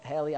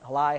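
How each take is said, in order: First: "Haley" as HAY-lee; alternative pronunciation. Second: "Halai" ending like "lie"; tentative pronunciation. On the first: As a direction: try "Haley" softly, ending in an "ee" sound. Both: Real, not acted. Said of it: "I don't know how you pronounce it".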